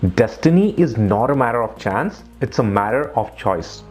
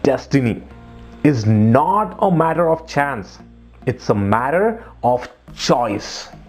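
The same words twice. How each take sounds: First: It is read plainly without strong word emphasis. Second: Destiny, not and choice are strongly emphasized.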